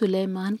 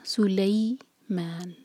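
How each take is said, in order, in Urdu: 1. دوسرا سلیبل سادہ 'leh' آواز ہے۔ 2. دوسرا سلیبل پھسلتی ہوئی 'lay' آواز ہے۔ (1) "اردو میں ہم سلیمان کہہ لیتے ہیں" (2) "لام کی پر فتح ہے, ساتھ میں یا مدلین"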